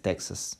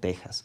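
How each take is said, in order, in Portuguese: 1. O x é pronunciado como um som de ks. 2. O x é pronunciado como um som de h gutural. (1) "Em inglês" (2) "Em espanhol, é México ou Texas"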